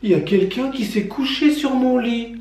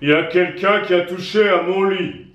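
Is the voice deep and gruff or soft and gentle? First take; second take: soft, gentle; deep, gruff. First: It is said in a soft, gentle voice. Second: It is said in a deep, gruff voice.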